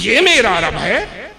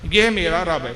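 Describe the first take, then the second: First: It is said as a doubting question. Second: It is said as a firm statement.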